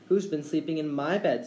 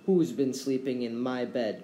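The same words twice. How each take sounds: First: Lightly voiced little bear; a hint of a baby bear's squeak. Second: Lightly voiced bear growl; a hint of a gruff papa bear; growling father bear. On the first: Baby Bear finding someone in his bed, mildly squeaked. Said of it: "squeaked Baby Bear". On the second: Father Bear finding his bed used, mildly growled. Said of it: "growled Father Bear". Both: A narrator's reading.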